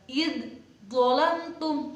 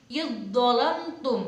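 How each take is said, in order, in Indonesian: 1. Bunyi d diucapkan terpisah sebelum dh. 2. Bunyi d menyatu ke dalam dh yang mengikutinya. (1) "Jadi tidak tidak gini, tidak id dhalamtum" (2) "dalnya itu dimasukkan ke do"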